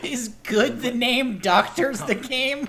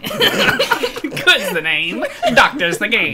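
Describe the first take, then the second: First: Soft questioning try; quiet tentative. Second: Drawn-out catchphrase. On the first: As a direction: test the phrase quietly. Quiet first try of the line. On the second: Catchphrase repeated with gusto. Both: Pretend.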